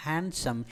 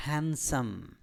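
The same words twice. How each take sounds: First: Handsome with the "d" sounded, "hand-sum"; the mistaken "hanD-some"; wrong pronunciation. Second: Handsome as "han-sum", no d, slow and soft; silent d. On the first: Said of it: "No, it's not handsome". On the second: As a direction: drop the d in handsome. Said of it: "it is handsome". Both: Shown as a demonstration.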